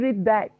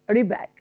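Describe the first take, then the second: First: The d sound is kept before the b. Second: The d sound is dropped before the b. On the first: The speaker calls it wrong. "I don't say red bag" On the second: The speaker calls it right. "I omit D in the first word, okay, and read it rebag"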